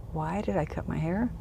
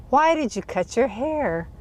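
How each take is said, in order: First: Soft, retold thought; puzzled inner echo. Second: Higher-pitched imitation of his challenge; retold demanding question. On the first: Woman wondering why she cut her hair, soft puzzled echo. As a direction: echo his question quietly to yourself. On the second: Driver questioning her about cutting her hair, retold higher demand. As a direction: question her sharply, as he did.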